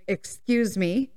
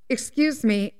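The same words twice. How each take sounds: First: Slow, drawn-out "Excuse me" rising at the end; pointed insistence. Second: Said in the usual way. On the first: Retold or imitated. Ignored mom tapping the glass again, slow and pointed. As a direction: stretch out "Excuse me" to demand attention.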